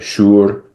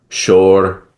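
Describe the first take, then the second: First: The vowel is an oo sound. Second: The vowel is an o sound. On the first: This is the changed pronunciation used in Iran. "we would say shur" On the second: This is the older pronunciation kept in India. "in a word like shor"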